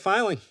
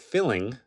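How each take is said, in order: First: The first syllable sounds like the word file. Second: The first syllable sounds like the word fill. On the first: The speaker calls it right. "things we file" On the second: The speaker calls it wrong. "not to be confused with filling, as some have pronounced it"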